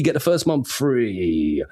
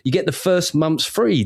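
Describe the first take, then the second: First: "free" stretched out long; slow down and hold the word "free"; drawn-out FREE. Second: Said in the usual way. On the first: Real, not acted. Podcast host selling the sponsor's offer, drawn-out "free".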